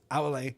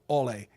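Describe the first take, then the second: First: The first vowel is a round 'ow' sound. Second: The first vowel is a plain 'oh' sound. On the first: The speaker calls it right. "gives us ow" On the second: The speaker calls it wrong. "not ole"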